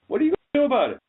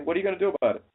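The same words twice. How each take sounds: First: Much higher, louder shout. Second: Said in the usual way. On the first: Acted. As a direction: yell the challenge at them. Repeated challenge, second louder.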